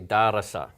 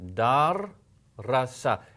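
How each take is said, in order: First: The word flows smoothly with a single r. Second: The word breaks after dar, doubling the r. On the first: The speaker calls it wrong. "if you were to say this in English, you might say" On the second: The speaker calls it right. "If you paused in between them"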